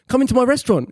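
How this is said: It is said in a put-on English accent. "I do an English accent"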